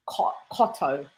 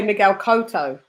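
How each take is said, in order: First: Cotto with short o, "COT-oh"; low, soft Cotto, first syllable like "cot"; British pronunciation. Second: Cotto with long o, "KOH-toh"; Cotto, first syllable like "coat"; American pronunciation. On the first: Co-host giving the home version, Cotto as "COT-oh". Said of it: "it's Cotto for us". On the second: Co-host showing their own adopted way, Cotto as "KOH-toh". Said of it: "but I say". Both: Shown as a demonstration.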